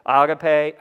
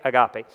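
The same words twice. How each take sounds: First: Agape said AH-gah-pay; first say Agape as AH-gah-pay; Agape the Greek way, AH-gah-pay; Greek pronunciation. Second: Agape said uh-GAH-pee, stress on the middle; agape, uh-GAH-pee, English style; familiar English pronunciation. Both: Shown as a demonstration. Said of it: "slip back into agape".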